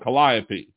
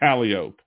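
First: It is pronounced like the musical instrument's name. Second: It is pronounced the local way, unlike the instrument. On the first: It names the musical instrument. "instrument that's spelled that way is called a calliope" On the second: It names the local street. "if you're driving on the street, it's freaking calliope"

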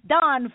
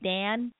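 First: The vowel sounds like the one in 'don'. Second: The vowel sounds like the one in 'man'. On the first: The speaker calls it right. "Don, folks" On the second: The speaker calls it wrong. "oh, he's a seventh Dan"

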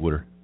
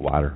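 First: It is said in a Lower Delaware accent. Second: It is said in a standard accent.

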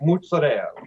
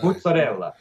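First: Italian-American style, with the final vowel dropped. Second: Italian style, with the full final vowel.

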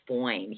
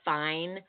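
First: The vowel is an exaggerated 'oy' sound. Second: The vowel is the ordinary 'eye' sound. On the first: He is extremely attractive, beyond ordinary. "You have to put an O in there" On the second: He is attractive. "it goes beyond fine"

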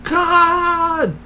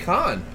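First: The name is shouted with strong emphasis. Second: The name is said plainly, without emphasis. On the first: The speaker calls it right. "There you go" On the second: The speaker calls it wrong. "You said his last name twice and never put emphasis on it"

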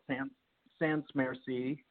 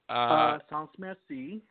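First: The name is said with an American accent. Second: The name is said with a French accent.

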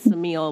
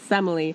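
First: The name is pronounced as Samil. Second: The name is pronounced as Semele. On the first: The speaker calls it wrong. "who I was not pronouncing correctly" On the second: The speaker calls it right. "it's Semele"

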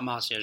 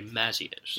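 First: The first vowel sounds like an O. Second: The first vowel is a short A. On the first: The speaker calls it wrong. "Not Mazios. There's no O" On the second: The speaker calls it right. "The short A"

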